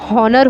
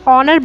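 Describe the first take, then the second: First: The word starts with an audible h sound. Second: The word starts with a vowel, no h. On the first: The speaker calls it wrong. "ये अगर हम एच के साथ बोलें तो हॉनर होगा" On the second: The speaker calls it right. "हम इसे हॉनर नहीं ऑनर बोलते हैं"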